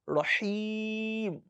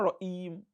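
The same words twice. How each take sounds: First: The middle consonant is a breathy h. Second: The middle consonant is a glottal catch. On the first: The speaker calls it right. "It is ha" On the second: The speaker calls it wrong. "It's not Rahim"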